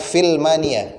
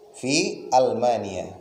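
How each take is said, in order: First: The words run together without a glottal stop. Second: A glottal stop separates the two words. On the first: The speaker calls it wrong. "jangan dibaca filmania, enggak boleh" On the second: The speaker calls it right. "hamzah qat'i"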